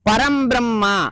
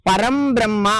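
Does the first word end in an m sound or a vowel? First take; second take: m sound; m sound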